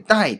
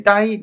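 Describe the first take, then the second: First: 待 as dài, sharply falling fourth tone; 待 said dài, a steep fall. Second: 待 as dāi, high and level first tone. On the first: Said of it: "これを第四声". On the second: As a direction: hold 待 flat and high, dāi. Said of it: "えー、第一声ですね". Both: Shown as a demonstration.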